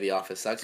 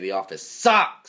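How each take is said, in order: First: It is said at a normal, calm volume. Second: It is yelled loudly and forcefully. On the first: "We don't just say" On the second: "We all yell it at him"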